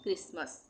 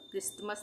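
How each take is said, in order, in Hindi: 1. बीच में आने वाला t मौन रहता है। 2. बीच में आने वाला t उच्चारित होता है। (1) "क्रिसमस में इस टी का उच्चारण नहीं होगा" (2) "क्रिसमस नहीं बोलेंगे"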